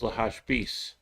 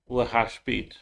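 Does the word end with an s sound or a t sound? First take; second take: s sound; t sound. First: The word ends with an s sound. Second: The word ends with a t sound. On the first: "I would pronounce it as lahashbis"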